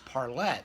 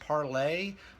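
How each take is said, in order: First: The name ends with a clear t sound. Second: The name ends in an open 'ay' vowel. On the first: This is how people close to the band say it. "he pronounced it Parlette" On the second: This is a possible alternative reading of the name. "it might be pronounced Parlay"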